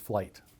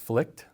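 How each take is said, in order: First: It sounds like the English word flight. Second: It ends with a k sound before the t. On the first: This is how it is said in the United States. "if you're in the U S, it's Flight" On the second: This is how it is said in Sweden. "if you're sitting in Stockholm, Sweden, it's Flikt"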